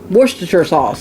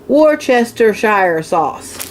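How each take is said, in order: First: The word is said in a shortened form. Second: Every syllable of the written word is pronounced. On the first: "is what everybody calls it" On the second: "if you pronounce it the way it looks"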